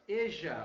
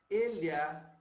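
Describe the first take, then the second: First: The middle consonant sounds like a j. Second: The middle consonant sounds like ly. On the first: This is how the River Plate region says it. "olha o J de novo, Uruguai e Argentina, Rio de la Plata" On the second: This is how a few Central American countries say it. "Centro-América"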